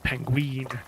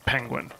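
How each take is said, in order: First: The word is pronounced in a childish, garbled way. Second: The word is pronounced the standard adult way. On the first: The speaker calls it wrong. "they used to pronounce it penguin" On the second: The speaker calls it right. "used to know it was penguin"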